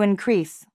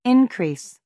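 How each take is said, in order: First: Increase as a verb, in-CREASE; stress on second syllable. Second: Increase as a noun, IN-crease; high start on "increase", falling away; stress on first syllable. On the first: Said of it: "Verb, to increase". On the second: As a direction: say "increase" as IN-krees. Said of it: "Noun, increase". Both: Shown as a demonstration.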